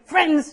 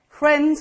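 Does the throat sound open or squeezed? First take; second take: squeezed; open. First: The voice sounds tight and squeezed in the throat. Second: The voice sounds open and relaxed in the throat. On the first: The speaker calls it wrong. "If I'm saying, friends, I can't drink beer" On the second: The speaker calls it right. "To speak is actually to feel like you're drinking a cold beer"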